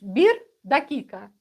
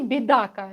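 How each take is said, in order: First: Every syllable of both words is clearly pronounced. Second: The words are squeezed into one short word. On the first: This is the standard form. "Нужно говорить" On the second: This is how locals say it in casual speech. "А они"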